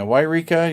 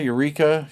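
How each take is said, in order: First: Yreka said as WHY-ree-ka, starting with a why sound; Yreka pronunciation. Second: Said in the usual way. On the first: Shown as a demonstration. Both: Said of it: "Or is that Eureka, California?".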